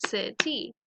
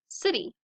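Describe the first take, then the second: First: "city" in two beats, CI, then TY; syllable-by-syllable "city"; split into syllables. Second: Said in the usual way. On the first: Shown as a demonstration. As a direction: break "city" between its syllables. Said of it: "two syllables". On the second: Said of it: "So let's practice them".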